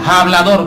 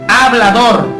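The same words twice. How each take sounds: First: The word begins with a harsh throaty j sound. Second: The word begins directly with a vowel sound. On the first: The speaker calls it wrong. "no como muchas personas pronuncia hablador, no, no, no es ja con J" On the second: The speaker calls it right. "es hablador con H"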